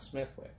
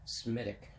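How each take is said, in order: First: "Smithwick" with the TH and the W sounded; the spelled-out "Smithwick"; wrong way. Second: "Smittick", slow, hard T, no W; drawn out "Smittick"; Irish way, slow. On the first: Showing viewers the wrong name for the beer. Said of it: "not Smithwick". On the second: Telling viewers how the Irish say the beer, slowly. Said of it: "They don't pronounce the T". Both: Shown as a demonstration.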